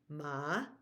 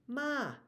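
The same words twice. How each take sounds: First: The tone dips down and then rises. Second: The tone stays high throughout the word. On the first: It means dog. "where we go down and up or rising" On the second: It means horse. "high tone"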